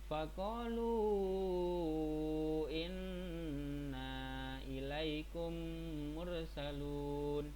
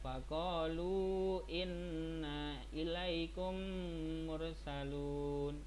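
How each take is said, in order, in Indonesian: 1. Huruf mad dipanjangkan menjadi lima harakat. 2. Huruf mad dibaca dua harakat. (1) "Itu lim harokat" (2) "Itu dua harokat"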